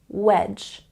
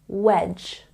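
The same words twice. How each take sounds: No difference in how they are said.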